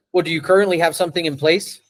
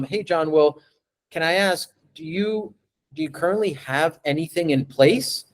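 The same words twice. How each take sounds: First: Fast, offhand question; quick, disinterested sales question; rushed, flat question. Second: Gentle, interested question to the client; curious tone. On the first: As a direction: rattle it off without interest. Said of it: "That's very different from". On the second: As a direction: ask like you really want to know. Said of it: "the tone of my voice is curious". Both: Shown as a demonstration.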